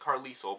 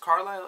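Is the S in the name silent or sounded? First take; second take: sounded; silent. First: The S in the name is sounded. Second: The S in the name is silent. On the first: The speaker calls it wrong. "I was pronouncing it as Carlisle, but in my head, because I saw that S, I felt like I needed to pronounce it" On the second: The speaker calls it right. "Carlisle isn't a hard name to pronounce"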